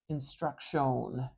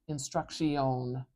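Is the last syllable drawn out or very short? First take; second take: drawn out; drawn out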